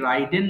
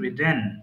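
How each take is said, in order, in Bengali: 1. প্রথম স্বরধ্বনিটি 'eye' এর মতো শোনায়। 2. প্রথম স্বরধ্বনিটি 'ih' এর মতো শোনায়। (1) "এটা ভুল করে অনেকে রাইডেন বলি" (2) "so it should be রিডেন"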